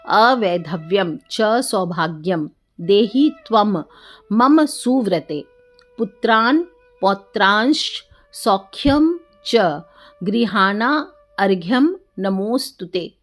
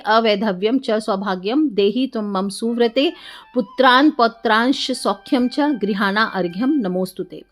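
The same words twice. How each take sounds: First: It is said slowly. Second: It is said at normal speed.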